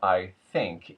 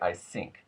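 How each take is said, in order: First: 'Think' starts with a TH sound. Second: 'Think' starts with an S sound.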